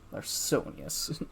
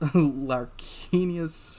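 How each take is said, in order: First: The middle consonant is an s sound. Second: The middle consonant is not an s sound. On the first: The speaker calls it right. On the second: The speaker calls it wrong.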